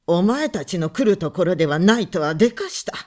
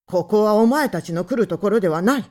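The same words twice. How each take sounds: First: Louder, fast sarcastic repeat of お前たちの来るところではない; mocking echo. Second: Loud, fast and hard, rising on お前; angry shout. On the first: Visitor man mocking the husband's words, sarcastic. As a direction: throw his own words back with a sneer. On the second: Husband ordering the visitors out, angry. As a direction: fling お前たちの来るところではない at them in anger. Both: A narrator's reading.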